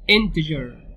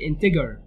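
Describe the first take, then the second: First: The g is pronounced as a soft sound. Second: The g is pronounced as a hard sound. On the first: The speaker calls it right. "بقول integer" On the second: The speaker calls it wrong. "ما بقولش integer"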